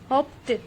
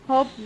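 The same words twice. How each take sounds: First: The ending is a t sound. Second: The ending is not a t sound. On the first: The speaker calls it right. "Native speakers ... टी का sound इस्तेमाल करते हैं" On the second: The speaker calls it wrong. "ये verbs इस तरह से नहीं pronounce किए जाते हैं"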